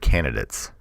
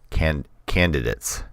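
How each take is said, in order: First: The first d is dropped. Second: The first d is clearly pronounced. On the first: "I've always said candidates" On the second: "I don't think I've ever enunciated the first D"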